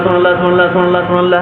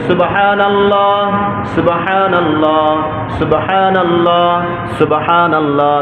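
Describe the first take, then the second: First: The phrases are rushed together quickly without breaths. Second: Each phrase is said slowly, one per breath. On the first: The words cannot be understood. The speaker calls it wrong. "এই যে বলি কিছু বোঝা যায়, কিচ্ছু বোঝা যায় না।" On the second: The words are said calmly and steadily. The speaker calls it right. "এভাবে"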